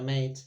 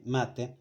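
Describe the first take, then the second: First: "mate" said the English way, rhyming with "late". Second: "mate" said the Spanish way, two syllables "ma-te". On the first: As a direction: say "mate" as English "meɪt", one syllable. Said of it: "like the word mate". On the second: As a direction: say "mate" as Spanish "máte", stress on ma. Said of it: "it's written the same way". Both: Shown as a demonstration.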